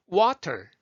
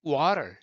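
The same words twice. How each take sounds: First: Water with a crisp, puffed T; aspirated T in the middle of water; full T sound. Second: American tapped water; flapped T. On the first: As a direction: punch out water with a released T. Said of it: "터로 안 하고". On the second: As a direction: let no air out on the T of water. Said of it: "호흡 안 나가죠". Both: Shown as a demonstration.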